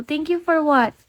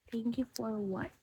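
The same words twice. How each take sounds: First: Said in the usual way. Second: Repeated under the breath, much softer; softly repeating a viewer's puzzling thanks; near-silent. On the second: Real, not acted. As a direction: murmur the question to yourself. Streamer repeats the question softly.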